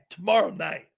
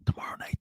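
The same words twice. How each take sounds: First: It is said in a normal voice. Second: It is said in a whisper.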